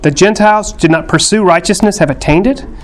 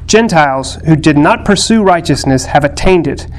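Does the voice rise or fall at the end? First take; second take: rise; fall. First: It ends with a rise, like a question. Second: It ends with a fall, like a statement.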